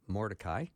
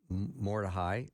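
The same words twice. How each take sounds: First: The name is said the usual English way. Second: The name is said the Hebrew way. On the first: "we're probably used to saying Mordecai" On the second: "she pronounces uh, the names correctly in the Hebrew"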